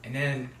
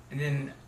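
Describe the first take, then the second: No difference in how they are said.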